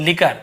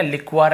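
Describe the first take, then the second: First: लिकर said as "li-kar", no w sound; लिकर with the hard k and no w glide; correct pronunciation. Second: लिक्वर said as "lik-war" with a w glide; लिक्वर with a kw sound after the k; wrong pronunciation. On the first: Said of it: "केवल लिकर पढ़ेंगे". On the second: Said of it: "ऐसे नहीं पढ़ेंगे". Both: Shown as a demonstration.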